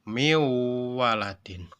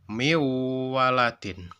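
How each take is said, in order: Both takes have the same delivery.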